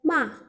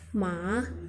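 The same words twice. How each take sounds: First: The pitch drops sharply and abruptly. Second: The pitch rises toward the end. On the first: "intonasi menghentak atau intonasi keempat" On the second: "intonasi naik"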